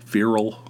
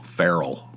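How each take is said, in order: First: "Feral" as FEER-ul, questioning; alternative pronunciation. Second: "feral" as FAIR-ul, open "eh" in the first syllable; pronunciation of feral. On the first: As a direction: try "Feral" with the first syllable like "fear". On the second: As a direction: say "feral" to rhyme with "peril". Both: Shown as a demonstration. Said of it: "Is that how you pronounce it?".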